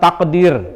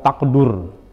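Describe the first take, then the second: First: The second syllable has an 'i' vowel. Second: The second syllable has a 'u' vowel. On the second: "wa dhammiha, bisa juga dibaca fa illam taqdur"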